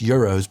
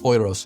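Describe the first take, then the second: First: The word is pronounced the English way. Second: The word is pronounced the German way. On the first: "even though it's euros" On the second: "in German it's pronounced euros"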